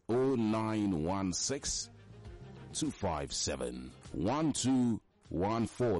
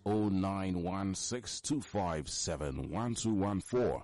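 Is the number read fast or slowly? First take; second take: slowly; fast. First: The number is read slowly. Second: The number is read at normal speed.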